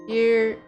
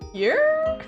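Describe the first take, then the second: First: The voice falls at the end. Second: The voice rises at the end.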